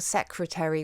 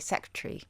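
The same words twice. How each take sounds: First: Every syllable of the word is pronounced. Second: One syllable of the word is dropped.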